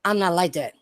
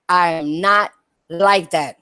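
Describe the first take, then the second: First: Said in the usual way. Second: Slow, "not" hit hard and spaced out; stress on not. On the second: Shown as a demonstration. Streamer insisting to viewers she is different, stressing "not". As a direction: lean on "not" and slow the whole line. Repeats line with emphasis.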